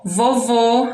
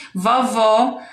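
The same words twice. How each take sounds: First: "Vovô" with closed ô at the end; closed final O. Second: "Vovó" with open ó at the end; open final O. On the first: Teacher reading example with circumflex, "Vovô" closed. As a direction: say "Vovô" ending on a rounded, closed ô. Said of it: "acento circunflexo no O". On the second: Teacher reading example with acute accent, "Vovó" open. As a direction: say "Vovó" ending on a wide-open ó. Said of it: "acento agudo no O". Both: Shown as a demonstration.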